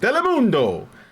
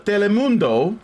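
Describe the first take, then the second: First: The word is said with lively, passionate energy. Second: The word is said in a plain, flat way.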